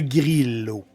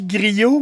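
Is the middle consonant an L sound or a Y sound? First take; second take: L sound; Y sound. First: The middle consonant sounds like an L. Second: The middle consonant sounds like a Y. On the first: The speaker calls it right. "C'est le grillo. G R I L L O" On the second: The speaker calls it wrong. "moi, je dis griot, mais c'est pas comme ça, faut le dire"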